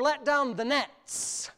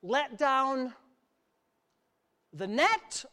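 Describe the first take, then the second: First: Slow, with "nets" stressed to its final s; plural NETS. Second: "net" set apart after a pause, as a question; pause, then offer "net" as the first option; singular NET. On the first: Preacher corrects the reading of verse four, stressing plural "nets". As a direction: draw out "nets" to mark the plural. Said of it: "Put as many nets". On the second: Preacher quizzes the church on verse four, stressing singular "net". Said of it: "Did Jesus say in verse four". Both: Shown as a demonstration.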